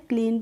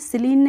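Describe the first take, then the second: First: The word begins with a k sound. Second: The word begins with an s sound. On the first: The speaker calls it right. "क्लीन पढ़ा है" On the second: The speaker calls it wrong. "इसको हमने स्लीन नहीं पढ़ा है"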